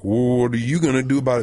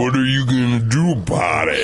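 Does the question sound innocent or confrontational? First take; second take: innocent; confrontational. First: It sounds like an innocent, helpful question. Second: It sounds like a challenge to fight.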